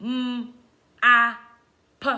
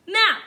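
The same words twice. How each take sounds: First: "M, A, P" as isolated sounds with pauses; robot sounding-out. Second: Said in the usual way. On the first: Shown as a demonstration. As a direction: break "M, A, P" into single sounds. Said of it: "saying it like a robot". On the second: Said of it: "all of the sounds in map".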